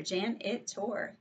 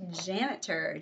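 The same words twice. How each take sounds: First: "janitor" slow, split into three parts; syllable by syllable. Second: Said in the usual way. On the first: Shown as a demonstration. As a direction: sound out each beat of "janitor". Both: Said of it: "three syllables".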